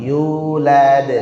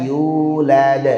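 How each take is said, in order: No difference in how they are said.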